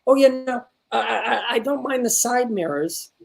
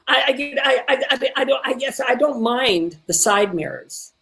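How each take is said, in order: First: Lightly voiced, tentative sitcom line; imitating student's delivery. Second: Stammered start, higher, then slowing; stuttering and stumbling. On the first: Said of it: "The way she said the line". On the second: Shown as a demonstration. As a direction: stumble into the line searching for words. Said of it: "didn't wanna stutter or stumble".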